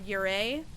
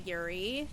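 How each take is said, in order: First: The word ends with an 'ay' sound. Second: The word ends with an 'ee' sound. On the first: The speaker calls it right. "It's a Yurei" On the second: The speaker calls it wrong. "I pronounced that wrong. A lot of streamers pronounce it Yuri"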